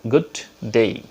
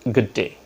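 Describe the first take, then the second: First: Said with a local non-native accent. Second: Said with a native-speaker accent. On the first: The speaker calls it wrong. "we pronounce good day" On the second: The speaker calls it right. "but they pronounce good day"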